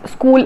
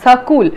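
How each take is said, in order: First: It is said plainly with no added vowel. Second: An extra vowel is added after the s. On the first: "school is pronounced as" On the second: "school is pronounced as sakul"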